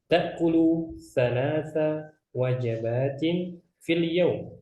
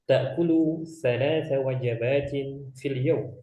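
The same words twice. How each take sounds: First: The sentence is read at a slower pace. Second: The sentence is read at a faster pace.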